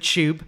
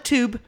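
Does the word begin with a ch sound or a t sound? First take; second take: ch sound; t sound. First: The word begins with a ch sound. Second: The word begins with a plain t sound. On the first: The speaker calls it right. "like C-H-U-B" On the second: The speaker calls it wrong. "Not the Tube"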